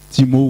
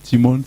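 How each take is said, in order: First: The name ends in a vowel, no N sound. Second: The name ends with an audible N sound. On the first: "on prononce Timo sans prononcer les deux N" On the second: "vous pouvez prononcer comme vous voulez"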